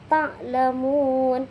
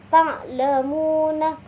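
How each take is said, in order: First: The final vowel is dropped; the last syllable is lengthened. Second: The word ends with a final vowel. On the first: The reading stops at this word. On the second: The reading continues without stopping.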